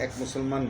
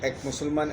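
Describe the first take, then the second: No difference in how they are said.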